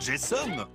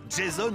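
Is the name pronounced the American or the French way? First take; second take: American; French. First: The name is said with an American pronunciation. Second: The name is said with a French pronunciation. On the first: "Grâce à une double nationalité" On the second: "Deux prononciations possibles"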